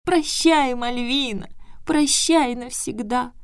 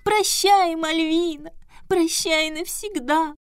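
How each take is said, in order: First: High, slow squeaky lament; wailing boo hoo crying. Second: High, slow tearful squeak; wailing boo hoo crying. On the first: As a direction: wail it as if dying. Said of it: "пропищал загадочную фразу". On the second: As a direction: wail it like a heartbroken Pierrot. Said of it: "плаксивым голосом пропищал". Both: Acted.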